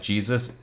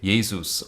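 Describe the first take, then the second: First: The word begins with a J sound. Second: The word begins with a Y sound. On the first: The speaker calls it wrong. "Not it's not like Jesus" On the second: The speaker calls it right. "pronounced with a y sound"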